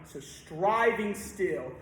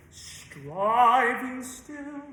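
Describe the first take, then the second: First: Said in the usual way. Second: Slow emphatic demo. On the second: Shown as a demonstration. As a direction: stretch "Striving still" very slowly, higher.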